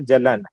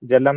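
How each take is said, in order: First: The word ends with an 'n' sound. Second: The word ends with an 'm' sound. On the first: The speaker calls it right. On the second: The speaker calls it wrong. "जलम नहीं होगा"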